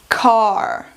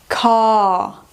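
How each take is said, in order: First: American accent, shorter vowel with the R sounded. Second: British accent, longer vowel with no R sound. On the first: "vou ler em americano primeiro" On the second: "Em britânico"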